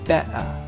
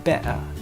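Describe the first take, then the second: First: The T is said the informal British way. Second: The same.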